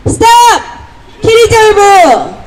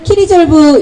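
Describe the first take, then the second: First: High, slow rally cry, falling at the end; 구호 외치기. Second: Said in the usual way. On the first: Real, not acted. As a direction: call out 키리졸브 as a drawn-out protest slogan. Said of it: "스탑 하면은 키리졸브 이렇게 외치시면". (높고 길게 외치는 구호) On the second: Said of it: "이렇게 외치시면 됩니다".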